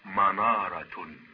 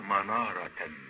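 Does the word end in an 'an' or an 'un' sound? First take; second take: un; an. First: The word ends with the sound 'un'. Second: The word ends with the sound 'an'. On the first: The word follows the case of the noun before it. "يجوز إذن أن نرفع كلمة منارة هنا" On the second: The word is in the accusative case. "يجوز نصبه"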